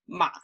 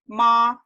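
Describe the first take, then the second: First: The pitch stays very low. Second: The pitch stays high and level. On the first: It means horse. "really, really low tone" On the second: It means mother. "high flat tone"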